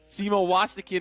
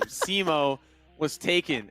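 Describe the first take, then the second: First: The last part is blended into one surname-like word. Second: The last part is said as separate words. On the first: It sounds like a person's full name. The speaker calls it wrong. "Simo Wastakin is not the correct way to pronounce my name" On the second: The name was already in use. The speaker calls it right.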